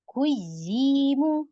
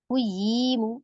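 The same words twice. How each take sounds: First: The doubled syllable is said with a slightly raised voice. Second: The doubled syllable is said without extra emphasis. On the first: "इसको थोड़ा-सा अप करें" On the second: "without नब्र"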